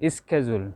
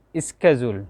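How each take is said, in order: First: It is said in an American accent. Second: The same.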